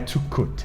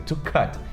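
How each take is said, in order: First: The vowel is a rounded 'u' sound. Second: The vowel is an open 'a'-like sound. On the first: The speaker calls it wrong. "e não é to cut" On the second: The speaker calls it right. "existem outras palavras que têm som de A"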